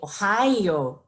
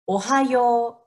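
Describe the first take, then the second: First: One syllable is stressed, like the English state name. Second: The syllables are even, with Japanese rhythm and pitch. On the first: It sounds like the name of the US state. The speaker calls it wrong. "I often hear um, people say Ohio, Ohio, because it sounds like Ohio, but it's not Ohio" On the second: It means good morning. The speaker calls it right. "practice here one more time"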